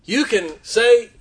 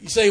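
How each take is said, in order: First: You drawn out slow with a lift; preacher slowing to offer the first choice, stressed; slow, stressed you can say. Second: Said in the usual way. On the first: Shown as a demonstration. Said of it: "Or you can say".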